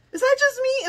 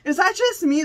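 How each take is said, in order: First: "Is that just me?" much higher, disbelieving; amazed squeak. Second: Said in the usual way. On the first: Real, not acted. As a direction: pitch "Is that just me?" way up in wonder. Asking again, amazed.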